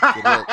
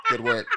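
First: High, loud sarcastic good work; sarcastic coach praise; mock praise. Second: Good work in a very high squeak; even higher mocking Good work; squeaky mock praise. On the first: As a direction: pat him on the back, not meaning it. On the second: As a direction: push the sarcasm way up into falsetto. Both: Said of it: "And I go".

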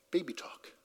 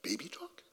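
First: Put-on "Baby talk." said flat with a falling end; statement, falling. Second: Put-on "Baby talk?" lifted into a soft, questioning rise. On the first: Preacher answering his own question: "Baby talk." falling. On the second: Preacher echoing the answer to the crowd: "Baby talk?" rising. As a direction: ask "Baby talk?" as if unsure, rising at the end. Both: Shown as a demonstration.

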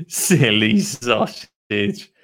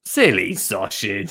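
First: Very slow, stretched-out "Silly sausage"; drawn-out teasing. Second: Lower, mildly slow "Silly sausage"; teasing. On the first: Lottie teases pot-headed Dottie, very slow drawn-out delivery. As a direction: drag out both words of "Silly sausage". First take, greatly drawn out. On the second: Narrator rereads Lottie's tease, less drawn-out low delivery. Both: Acted.

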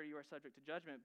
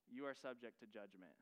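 First: Said in the usual way. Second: Softer and lower, a solemn warning; grave, hushed verdict. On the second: Acted. Preacher voicing Jesus' warning to listeners, hushed and grave. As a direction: let the verdict sink in quietly.

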